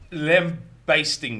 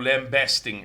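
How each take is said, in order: First: The word has its less common pronunciation. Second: The word has its now common pronunciation.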